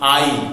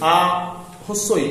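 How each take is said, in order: First: The two vowels glide together as one sound. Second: The two vowels are said separately, apart. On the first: The speaker calls it right. "এই দুটোকে একসাথে উচ্চারণ করে বলি আই" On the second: The speaker calls it wrong. "এভাবে তো বলি না"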